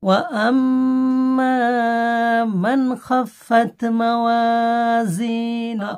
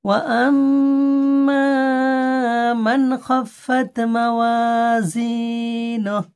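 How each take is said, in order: The two takes are said the same way.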